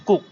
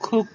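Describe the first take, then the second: First: "কুক" with a plain k, no puff; dry k opening "কুক"; unaspirated K. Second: "কুক" with a puff of air on the first k; airy k opening "কুক"; aspirated K. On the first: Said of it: "আমরা আগে এটা বলতাম". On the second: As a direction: say "কুক" with a strong kh onset. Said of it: "ঠিক খ উচ্চারণ নিয়ে আসবে". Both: Shown as a demonstration.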